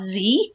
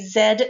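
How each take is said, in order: First: The letter is pronounced 'zee'. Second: The letter is pronounced 'zed'.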